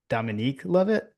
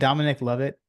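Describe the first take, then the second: First: The first name ends with a long 'eek' sound. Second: The first name ends with a short 'ick' sound. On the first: The speaker calls it wrong. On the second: The speaker calls it right.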